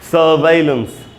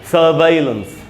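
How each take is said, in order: First: The second syllable sounds like 'vai'. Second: The second syllable sounds like 'vai'.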